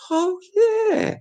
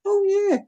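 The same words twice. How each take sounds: First: High squeaky falsetto; sudden falsetto yelp of delight; falsetto oh yeah. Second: High squeaky falsetto again; squeaky falsetto aside; falsetto oh yeah. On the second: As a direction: pipe it out high. High falsetto exclamation repeated. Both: Pretend.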